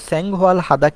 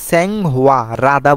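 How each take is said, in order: First: The h is pronounced after the l sound. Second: The h is dropped and l links forward. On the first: The speaker calls it wrong. "স্যাং-হোয়াল হাদা হবে না" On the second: The speaker calls it right. "রাদাই সঠিক"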